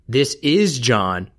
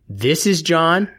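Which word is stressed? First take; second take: is; this. First: The stress falls on the word "is". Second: The stress falls on the word "this". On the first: "the is" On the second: "The this"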